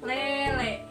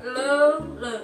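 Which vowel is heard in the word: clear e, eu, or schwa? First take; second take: clear e; eu. First: The vowels are a clear front e sound. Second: The vowels are an unrounded eu sound. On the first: "Kalau eteleng berarti oh, bacanya E" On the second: "Kalau pakai O jadi lele"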